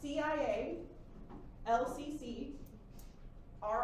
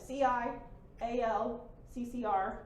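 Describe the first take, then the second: First: The letters are grouped in threes. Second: The letters are grouped mostly in pairs. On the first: "if I just change up the rhythm a little bit" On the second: "I read it in a very particular rhythm. I went"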